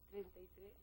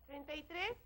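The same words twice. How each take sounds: First: It is said at a normal, soft volume. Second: It is said loudest of all.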